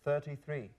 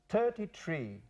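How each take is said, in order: First: Each word starts with a soft th sound. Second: Each word starts with a plain t sound. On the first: "treinta y tres" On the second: "what's thirty-three for some Irish speakers?"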